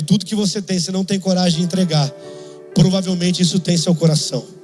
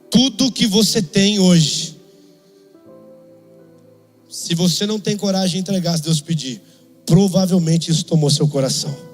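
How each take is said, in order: First: It is said at normal speed. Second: It is said more slowly.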